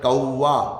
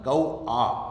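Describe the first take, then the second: First: A 'v' sound links the two vowels. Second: The two vowels meet with no 'v' sound. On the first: The speaker calls it wrong. "ये गलत है" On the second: The speaker calls it right. "कौवा नहीं, कौ आ"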